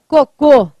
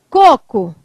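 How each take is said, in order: First: The stress is on the second syllable. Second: The stress is on the first syllable. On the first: "é o segundo cocô que é o mais forte" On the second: "Qual que é o com mais forte? É o primeiro"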